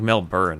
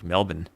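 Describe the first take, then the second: First: The R sound is clearly pronounced. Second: The R sound is left silent. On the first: The speaker calls it wrong. "it's not like Melbourne" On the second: The speaker calls it right. "The R is kind of silent, really. ... it's more like Melbourne"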